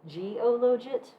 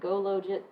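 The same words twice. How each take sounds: First: It starts with the letter G, then 'ologit'. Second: It starts with the word 'go', then 'logit'. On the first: It is the ologit command with a G added. "the person who wrote it pronounces it G-ologit because it's ologit in Stata" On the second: It sounds like a cheer for logit. "I think of it like a cheerleader"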